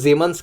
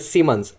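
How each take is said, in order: First: The name begins with a Z sound. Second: The name begins with an S sound. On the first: The speaker calls it right. "Actually इसका जो German pronunciation है" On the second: The speaker calls it wrong. "ऐसा प्रोनाउंस करते होंगे"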